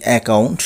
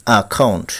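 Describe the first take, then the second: First: অ্যাকাউন্ট said "e-kaunt"; common mispronunciation. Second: অ্যাকাউন্ট said "a-khaunt"; corrected pronunciation. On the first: Teacher showing the common way, অ্যাকাউন্ট as "e-kaunt". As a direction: say অ্যাকাউন্ট with "e" and a plain k. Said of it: "আমরা বলে থাকি". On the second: Teacher correcting learners, অ্যাকাউন্ট as "a-khaunt". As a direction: say অ্যাকাউন্ট with "a" and aspirated "kh". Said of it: "সঠিক উচ্চারণ হবে". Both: Shown as a demonstration.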